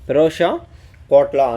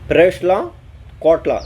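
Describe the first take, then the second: First: The name is said as 'Ferosha', with an 'o' sound. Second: The name is said as 'Ferashla', with an 'a' sound. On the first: The speaker calls it right. "அதாவது பெரோஷா Kotla" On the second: The speaker calls it wrong. "அந்த ப்ரொனவுன்ஸை வந்து கரெக்டாக சொல்லலைன்னு நினைக்கிறேன்"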